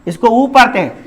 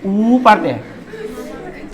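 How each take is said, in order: First: ऊ said short, a single beat; short vowel. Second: ऊ drawn out very slowly for two beats; double-sound vowel. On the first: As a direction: keep the ऊ brief in the phrase. ("ऊ" छोटा, एक मात्रा में) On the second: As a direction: stretch the ऊ long before going on. ("ऊ" खूब लंबा खींचकर) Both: Shown as a demonstration. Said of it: "थोड़ा डबल साउंड बोलना पड़ेगा".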